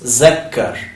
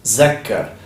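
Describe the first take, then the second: First: The word begins with a 'z' sound. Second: The same.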